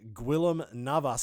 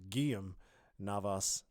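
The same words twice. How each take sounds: First: The name is pronounced as English spelling suggests. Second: The name is pronounced with Spanish sounds. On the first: The speaker calls it wrong. "I guess if you read it in English, that's what you're going to pick up" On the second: The speaker calls it right. "the Spanish way of saying it"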